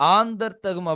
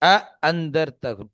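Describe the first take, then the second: First: The second glottal stop becomes a long vowel. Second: Both glottal stops are pronounced clearly and firmly. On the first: "ரெண்டாவது ஹம்சாவை அலிஃபாவே மாத்திடுறாங்க" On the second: "இரண்டு ஹம்சாவையும் நன்றாக அழுத்துவது கொண்டு"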